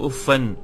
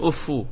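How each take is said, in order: First: The word ends with a doubled f and an. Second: The word ends with a doubled f and u. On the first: "bitasydid al-fa wa nasab wa tanwin" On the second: "tasydid al-fa bi rafa' min ghairi tanwin"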